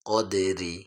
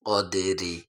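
The two takes are said the same way.

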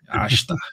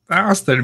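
First: The s is a hushing sh sound. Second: The s is a plain hissing s sound. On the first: "Se você estiver no Rio, vão puxar, vai dar uma chiada" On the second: "Aster mesmo"

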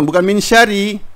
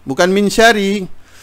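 Both takes have the same delivery.

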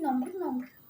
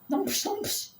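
First: The word ends with an 'r' sound. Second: The word ends with a 'sh' sound. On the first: The speaker calls it right. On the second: The speaker calls it wrong. "Kız nampış değil"

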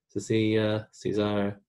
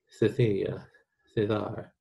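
First: The c is pronounced like s. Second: The c is pronounced like th.

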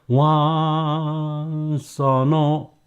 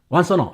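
First: The phrase is said slowly and carefully. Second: The phrase is said quickly and run together. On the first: "천천히 발음할 때는" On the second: "빨리 할 때는"

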